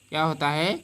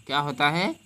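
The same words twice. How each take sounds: The two takes are said the same way.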